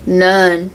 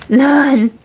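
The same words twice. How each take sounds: First: Said in the usual way. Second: Emphatic repeat. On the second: Real, not acted. To spirits before bed, a high defiant final none. Telling spirits they have no permission.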